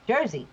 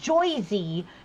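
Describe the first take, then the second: First: The first vowel sounds like 'er'. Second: The first vowel sounds like 'oy'. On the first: The speaker calls it right. "That's how you say it" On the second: The speaker calls it wrong. "I don't say Joyzy. None of us do"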